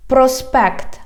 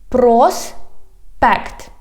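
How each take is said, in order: First: Said in the usual way. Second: "Проспект" slow, broken in two syllables. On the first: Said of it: "I read the whole word". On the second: Shown as a demonstration. Teacher teaching street words, "Проспект" slowly by syllables. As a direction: stretch "Проспект", pause between the two syllables. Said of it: "divide it into syllables".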